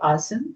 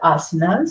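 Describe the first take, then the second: First: The word ends right after the n. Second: An extra vowel follows the n. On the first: This is the Sanskrit and Hindi form of the word. "Sometimes I may pronounce it that way, asan" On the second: This is the English form of the word. "there is always an A in front in English, so we call asanas"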